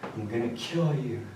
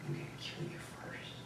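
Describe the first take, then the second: First: Said in the usual way. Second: Whisper. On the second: Retold or imitated. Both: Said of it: "he said something along the lines of".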